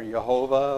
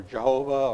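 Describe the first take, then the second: First: "Jehovah" begun with a Y sound, yuh-HO-vah; Y pronunciation. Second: "Jehovah" begun with an English J, juh-HO-vah; J pronunciation. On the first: Preacher offering ways to say the name, "Jehovah" with a Y. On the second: Preacher offering ways to say the name, "Jehovah" with a J. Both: Shown as a demonstration. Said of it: "pronounce that Hebrew or Greek word".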